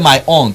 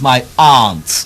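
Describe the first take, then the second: First: The vowel is not a long 'ah' sound. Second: The vowel is a long 'ah' sound. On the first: The speaker calls it wrong. "you don't say my aunt" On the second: The speaker calls it right. "it's my aunt"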